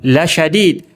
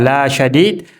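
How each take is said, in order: First: The vowel 'la' is short and quick. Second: The vowel 'la' is drawn out long. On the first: The punishment is truly severe. The speaker calls it right. "lamnya lagi penguatan" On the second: The punishment is not severe. The speaker calls it wrong. "kalau dibaca la syadid maka maknanya tidak keras"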